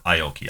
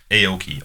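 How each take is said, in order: First: "Aoki" with EYE as the first sound; second pronunciation option. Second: "Aoki" with AY as the first sound; first pronunciation option. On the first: Host offering his guest the alternative reading, "Aoki" begun with EYE. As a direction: pronounce "Aoki" eye-OH-kee. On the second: Host guessing for his guest how to pronounce it, "Aoki" begun with AY. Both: Shown as a demonstration. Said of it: "how you pronounce it".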